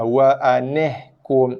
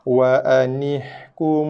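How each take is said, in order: First: The vowel after the n sounds like 'eh'. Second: The vowel after the n sounds like 'ee'. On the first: The speaker calls it wrong. "itu slang Melayu kita" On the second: The speaker calls it right. "so baca dengan ni"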